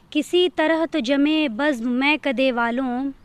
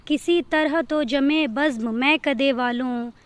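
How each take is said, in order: Both takes have the same delivery.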